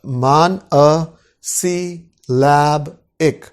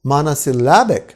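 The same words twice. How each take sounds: First: "मान अ सी लैब इक" broken into slow separate syllables. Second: Said in the usual way. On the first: Shown as a demonstration. Teacher introducing a new term to students, syllable by syllable. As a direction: sound out "मान अ सी लैब इक" piece by piece with gaps. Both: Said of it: "अभी आगे बढ़ते हैं".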